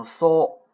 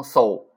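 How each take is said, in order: First: 搜 as a pure so, no glide; one round held o on 搜; correct Japanese so. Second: 搜 gliding from o into u; wrong Chinese-style sou. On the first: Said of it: "读成搜". (“搜”读成日语so，不带u尾音) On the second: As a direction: say 搜 as the Mandarin diphthong sou. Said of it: "不是饭馊的那个搜啊". (“搜”读成中文sou，带u尾音) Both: Shown as a demonstration.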